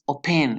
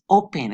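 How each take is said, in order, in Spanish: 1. El acento está en la segunda sílaba. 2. El acento está en la primera sílaba. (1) "no es open" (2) "es open"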